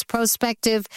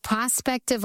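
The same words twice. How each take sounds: First: "prospective" said PRO-spective with a long O; long-O pronunciation. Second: "prospective" said PRAH-spective, short open O; short-O pronunciation. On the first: Host comparing two pronunciations, "prospective" as PRO-spective. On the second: Host comparing two pronunciations, "prospective" as PRAH-spective. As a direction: say "prospective" with the vowel of "prod". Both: Shown as a demonstration. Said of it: "tell me why the pronunciation".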